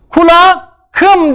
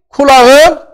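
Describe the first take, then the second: First: A hard k sound comes before the suffix. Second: A soft g comes before the suffix. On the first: The speaker calls it wrong. "kulakım diyemeyiz" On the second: The speaker calls it right. "Yumuşak G'yi getirdik. Kulağım oldu"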